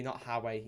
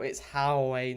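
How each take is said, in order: First: "Howie" dropped softer, the Sunderland way; Sunderland-style pronunciation. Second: "Howie" stretched slowly, the Newcastle way; drawn-out Newcastle pronunciation. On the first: Streamer rejecting the rival word, Sunderland pronunciation. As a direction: toss off "Howie" as the rejected form. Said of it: "that's Sunderland". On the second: Streamer insisting on the Newcastle word, slow pronunciation. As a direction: lean long on the Geordie "Howie". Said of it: "Newcastle fans say Howie". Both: Shown as a demonstration.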